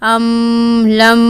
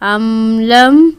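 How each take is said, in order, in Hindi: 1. आख़िरी m को बहुत ज़्यादा खींचा जाता है। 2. आख़िरी m को अचानक रोक दिया जाता है। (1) "ना ही ज़्यादा जारी रखेंगे, अमलम ऐसा नहीं है" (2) "हम अमलम ऐसे नहीं कह रहे"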